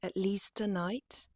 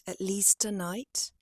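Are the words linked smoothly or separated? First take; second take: linked; linked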